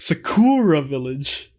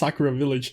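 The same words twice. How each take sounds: First: One syllable of Sakura is heavily overstressed. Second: The syllables of Sakura are said evenly. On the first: This is how the characters mispronounce it. The speaker calls it wrong. "they actually overpronounce one of those syllables" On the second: This is the intended name. The speaker calls it right. "it was supposed to be called"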